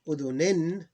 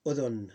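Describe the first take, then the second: First: "Udhunin" higher, louder, ending in -in; tanween ending. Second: "udhun" falling, closed on n; vowel ending ignored. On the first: Teacher reading the next form, tanween pronounced. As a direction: say "Udhunin" with its full -in. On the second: Teacher showing the same rule, ending dropped. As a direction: say "udhun" without the -in. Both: Shown as a demonstration. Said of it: "you ignore the vowel".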